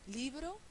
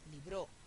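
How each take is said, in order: First: The stress is on the first syllable. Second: The stress is on the second syllable. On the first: "es llana"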